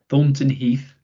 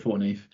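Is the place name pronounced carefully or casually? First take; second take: carefully; casually. First: The name is pronounced carefully, with every sound clear. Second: The name is pronounced casually, with sounds reduced. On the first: This is the proper way a parent insists on. "I should say it properly, my mum tells me off" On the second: This is how the speaker normally says it. "I say Thornton Heath"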